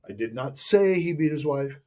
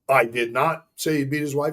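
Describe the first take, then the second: First: The word "say" is stressed. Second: The word "not" is stressed. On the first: It was implied but not said. "I implied it, but I never said it" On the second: The speaker denies saying it. "Statement of denial"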